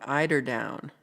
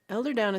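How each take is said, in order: First: The first word sounds like 'eye-der'. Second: The first word sounds like 'elder'. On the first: The speaker calls it right. "My bad" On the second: The speaker calls it wrong. "I'm saying it wrong"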